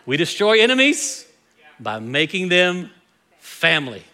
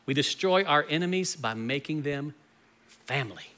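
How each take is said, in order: First: It is said more loudly. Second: It is said at normal volume.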